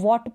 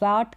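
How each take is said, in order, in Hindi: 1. यह गोलाई वाली 'w' आवाज़ से शुरू होता है। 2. यह 'v' आवाज़ से शुरू होता है। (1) "इसको वॉट पढ़ रहे हैं" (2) "वी वाला साउंड नहीं दे रहा है"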